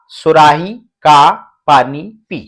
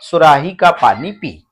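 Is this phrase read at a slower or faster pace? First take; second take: slower; faster. First: The phrase is read at a slower pace. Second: The phrase is read at a faster pace. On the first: "ऐसे पढ़िए" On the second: "अब आपको थोड़ी सी speed बढ़ाना है"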